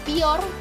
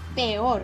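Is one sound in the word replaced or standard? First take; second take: replaced; standard. First: One sound is replaced by a different sound. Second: Every sound is pronounced the standard way. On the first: "cambiar un sonido por otro" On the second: "en lugar de decir"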